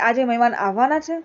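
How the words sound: It is said as a question.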